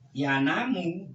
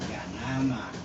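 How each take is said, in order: First: The word ends with a 'u' vowel. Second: The word ends with an 'a' vowel. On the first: The verb follows a negating la. "ini harokatnya doma" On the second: The verb follows the particle an. "Kalau di sini harokatnya fathah an"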